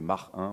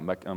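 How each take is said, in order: First: Mach ends in a rasping throaty h sound. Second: Mach ends in a plain k sound.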